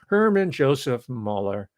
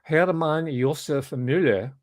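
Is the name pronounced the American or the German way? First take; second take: American; German. First: The name is said with American pronunciation. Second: The name is said with German pronunciation. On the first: The speaker calls it right. "he was actually American" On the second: The speaker calls it wrong. "I shouldn't give him the Germanic pronunciation"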